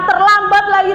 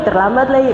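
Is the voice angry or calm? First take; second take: angry; calm. First: It is said loudly in a high, angry voice. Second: It is said softly in a calm voice. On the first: The speaker is punishing the listener. "Ini pakai nada suara yang tinggi" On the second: The speaker is not scolding. "Nggak mungkin ngomongnya terlambat lagi"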